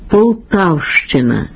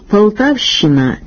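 First: The щ is said as two sounds, sh plus ch. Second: The щ is said as one long soft sound. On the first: The speaker calls it right. "Слід вимовляти" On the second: The speaker calls it wrong. "карикатурою на українську орфоепію"

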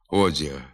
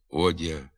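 First: The soft d has a hissing dz-like sound. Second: The soft d is plain with no hiss. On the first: The speaker calls it wrong. "вимовляються зі свистячим відзвуком" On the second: The speaker calls it right. "треба вимовляти"

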